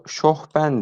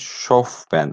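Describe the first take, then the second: First: The middle consonant is an h sound. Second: The middle consonant is an f sound. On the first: The speaker calls it wrong. "Genelde bunu şohben diye okuruz. Kesinlikle yanlıştır" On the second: The speaker calls it right. "Şofben arkadaşlar. F ile"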